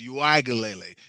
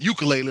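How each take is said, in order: First: The name starts with an oo-ee-ah sound. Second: The name sounds like the word ukulele. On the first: The speaker calls it right. "It's Uiagalele" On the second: The speaker calls it wrong. "not ukulele like we've been pushing"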